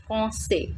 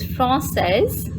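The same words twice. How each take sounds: First: Français ending on an open "say" with no final consonant; teacher's français with a silent s; masculine français. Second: Française said slowly with the final z sound, "fran-sez"; slow teacher's française with a sounded ending; feminine française. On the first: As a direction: let français end on the vowel, no s. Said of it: "And in masculine, we pronounce it like". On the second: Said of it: "The pronunciation of this word in feminine form". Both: Shown as a demonstration.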